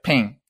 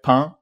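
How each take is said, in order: First: It is said in a southern French accent. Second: It is said in a standard French accent. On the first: "but they say like ping" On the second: "you usually say like pain"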